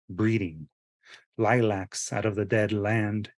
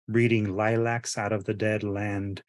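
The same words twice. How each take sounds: First: There is a pause right after breeding. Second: It flows without a pause after breeding. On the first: It is read as the poem's line breaks. "there's a pause after the words breeding" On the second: It is read as ordinary prose. "if you were to read it as a regular standard sentence in prose"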